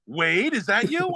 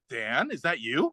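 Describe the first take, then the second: First: Higher, drawn-out movie question; slow, raised-pitch delighted recognition; excited recognition. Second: Slow, quiet dawning recognition; tentative recognition. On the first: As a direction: imitate recognising an old buddy mid-fight. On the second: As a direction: imitate a fighter hesitantly recognising his opponent. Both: Retold or imitated. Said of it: "that scene where he's at the end".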